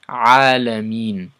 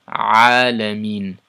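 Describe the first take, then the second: No difference in how they are said.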